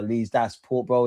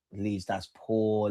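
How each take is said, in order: First: Said in the usual way. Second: "Leeds, that's poor" stretched out slowly and softly, "poor" long and falling; slow disappointed drawl. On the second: Real, not acted.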